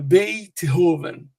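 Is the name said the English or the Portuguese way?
English. The name is said with English pronunciation. "mas aqui é"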